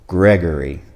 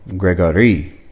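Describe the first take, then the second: First: The name is said with English pronunciation. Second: The name is said with French pronunciation. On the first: "In the English language" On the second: "In the French language"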